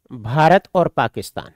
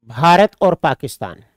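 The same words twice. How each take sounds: First: Slow dictation. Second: Said in the usual way. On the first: Shown as a demonstration. Teacher repeating for students to note down, slow dictation. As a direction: spell it out slowly so students can write. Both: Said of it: "आपने कहा".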